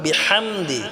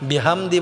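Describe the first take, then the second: First: The h is pressed from the throat. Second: The h is a plain, light breath. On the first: The speaker calls it right. "এই হাটাও আমরা গলায় চাপ দিয়ে উচ্চারণ করব" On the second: The speaker calls it wrong. "বিহামদি বললে হবে না"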